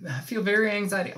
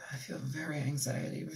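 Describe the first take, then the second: First: Southern accent creeping in. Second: Said in the usual way. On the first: Real, not acted. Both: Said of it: "speaking in a fucking Southern accent".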